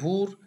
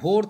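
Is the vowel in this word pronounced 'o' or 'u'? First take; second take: u; o. First: The vowel is pronounced as 'u'. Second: The vowel is pronounced as 'o'. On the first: This is the Rarhi dialect form. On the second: This is the standard form.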